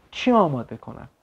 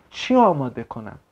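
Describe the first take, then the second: No difference in how they are said.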